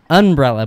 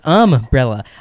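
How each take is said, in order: First: The first syllable ends in an n sound. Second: The first syllable ends in an m sound. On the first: The speaker calls it wrong. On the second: The speaker calls it right.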